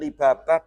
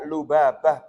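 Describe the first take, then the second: First: The first vowel after L is i. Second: The first vowel after L is u. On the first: The speaker calls it wrong. "bukan libabah" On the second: The speaker calls it right. "dibaca lubabah"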